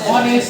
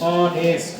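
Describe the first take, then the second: First: The word begins with an h sound. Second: The word begins with a vowel sound. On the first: The speaker calls it wrong. "আমরা হনেস্ট বলি নাই" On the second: The speaker calls it right. "এখানে এই silent আছে"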